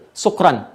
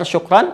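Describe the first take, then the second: First: The word begins with a plain s sound. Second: The word begins with an sh sound. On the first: It means being drunk. The speaker calls it wrong. "pakai sin kecil ... itu salah tuh" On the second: It means thank you. The speaker calls it right. "pakai shin besar"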